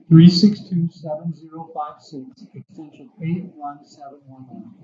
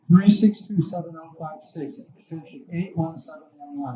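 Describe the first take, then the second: First: The number is said at a slow pace. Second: The number is said at a fast pace.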